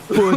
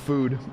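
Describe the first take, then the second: First: The word mimics the other person's pronunciation. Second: The word is said the speaker's usual way.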